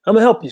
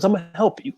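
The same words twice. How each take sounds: First: Repeated louder for emphasis; emphatic repeat. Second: Said in the usual way. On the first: Retold or imitated. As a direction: make the promise land this time. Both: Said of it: "He says, he says".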